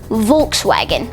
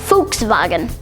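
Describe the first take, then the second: First: It is said with English-style sounds. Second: It is said with German-style sounds. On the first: The speaker calls it wrong. "The way that most people would pronounce it" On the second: The speaker calls it right. "the official German pronunciation is actually"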